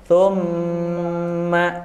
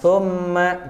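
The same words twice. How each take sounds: First: The nasal m is held for three beats. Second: The nasal m is rushed and cut short. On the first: The speaker calls it right. "tapi thumma" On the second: The speaker calls it wrong. "Jangan tergesa-gesa. Bukan thumma"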